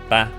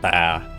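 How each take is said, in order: First: The pitch stays level through the word. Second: The pitch falls through the word. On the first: It means father. "like just ba" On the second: It means grandmother. "like where you go down in tone"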